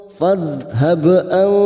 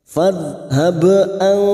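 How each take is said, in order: The two takes are said the same way.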